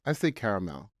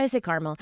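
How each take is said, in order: First: "caramel" said as CARE-uh-mel; three-syllable caramel. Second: "caramel" said as CAR-mul; two-syllable caramel. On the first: Co-host answering which way she says it, "caramel" as CARE-uh-mel. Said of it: "Do you say caramel or caramel". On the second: Baker dropping the proper version, "caramel" as CAR-mul. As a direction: squash "caramel" into KAR-muhl. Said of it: "I was trying to be proper". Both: Shown as a demonstration.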